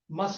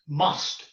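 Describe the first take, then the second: First: The vowel is reduced and short. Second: The vowel is full and clear. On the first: "Must is a weak form" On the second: "Must is a strong form"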